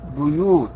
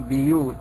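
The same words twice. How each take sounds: First: The first syllable has a 'u' vowel. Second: The first syllable has an 'i' vowel. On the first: This is the Hafs and Warsh reading. "ورش يضمها وحفص يضمها" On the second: This is the Qalun reading. "رواية قالون يكسرها"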